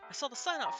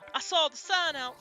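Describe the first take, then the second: First: It is said in the speaker's normal voice. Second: It is said in a put-on character voice. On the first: The speaker calls it right. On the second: The speaker calls it wrong.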